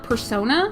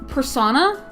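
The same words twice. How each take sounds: First: The second part sounds like sona, rhyming with Mona. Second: The second part sounds like the word sauna. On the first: The speaker calls it right. "and not persona" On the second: The speaker calls it wrong. "I always said persona"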